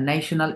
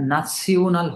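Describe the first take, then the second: First: The middle consonant is an sh sound. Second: The middle consonant is an s-like sound. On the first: The speaker calls it wrong. "এটা ন্যাশনাল এরকম না" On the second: The speaker calls it right. "এটা নাসিওনাল হবে"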